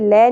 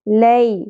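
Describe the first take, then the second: First: The vowel glide is said abruptly, without softness. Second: The vowel glide is said softly and smoothly. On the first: The speaker calls it wrong. "लै नहीं पढ़ेंगे" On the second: The speaker calls it right. "नरमी से अदा करेंगे"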